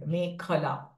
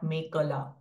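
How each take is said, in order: First: The k sound has a strong puff of breath. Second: The k sound has no puff of breath. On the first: The speaker calls it right. "Kh is Mahaprana sound here" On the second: The speaker calls it wrong. "not Mekala"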